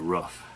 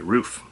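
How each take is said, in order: First: It is said with an Ohio regional pronunciation. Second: It is said with a standard, non-regional pronunciation. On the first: "I guess that's an Ohio thing" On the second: "So I finally learned to say roof"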